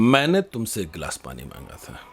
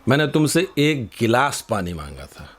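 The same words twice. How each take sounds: First: The word मैंने carries the strongest stress. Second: The word गिलास carries the strongest stress. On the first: I asked, not someone else. "अगर हमने मैंने पर जोर दे दिया" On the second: I asked for a glass, not a whole pot. "तुम ये पूरा मटका क्यों ले आए?"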